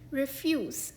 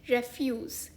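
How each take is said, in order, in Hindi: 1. ज़ोर दूसरे अक्षर पर है। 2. ज़ोर पहले अक्षर पर है। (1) "रिफ्यूज यानी इनकार करना" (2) "इस शब्द का दूसरा उच्चारण है रेफ्यूज यानी कचरा या वेस्ट"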